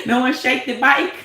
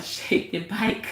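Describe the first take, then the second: First: Laughing it out louder. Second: Quiet laugh. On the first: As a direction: laugh loudly through the words. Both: Real, not acted.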